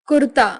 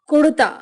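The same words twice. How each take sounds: No difference in how they are said.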